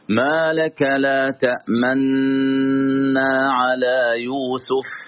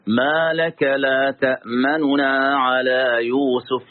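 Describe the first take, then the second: First: The two n sounds merge into one doubled n. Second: Two n sounds with a brief, clipped vowel between. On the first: "الوجه الأول الإدغام مع الإشمام" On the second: "بالاختلاس بدون إدغام، اختلاس حركة النون"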